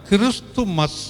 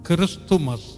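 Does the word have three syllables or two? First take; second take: Three; Three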